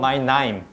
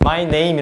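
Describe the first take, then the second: First: The vowel in name is a broad Australian sound. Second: The vowel in name is a standard 'ay' sound. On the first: "그렇게 발음하는 거더라고요" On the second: "이렇게 하지 않고"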